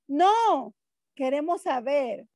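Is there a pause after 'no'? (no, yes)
yes. There is a pause after an exclaimed 'no'. We do want to know.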